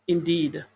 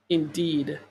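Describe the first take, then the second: No difference in how they are said.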